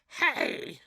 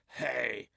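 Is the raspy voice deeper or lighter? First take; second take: lighter; deeper. First: A raspy voice that sounds lighter, less manly. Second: A raspy voice that sounds deep and manly. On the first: "not that manly" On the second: "raspy biker chick voices"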